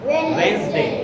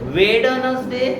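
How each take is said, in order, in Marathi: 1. मध्ये d आवाज ऐकू येत नाही. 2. मध्ये d आवाज ऐकू येतो.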